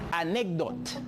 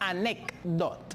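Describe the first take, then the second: First: The consonant after 'ane' sounds like a G. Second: The consonant after 'ane' sounds like a K. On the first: "Mais ce aussi peut sortir comme una G" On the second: "La C y la D sale como E y K"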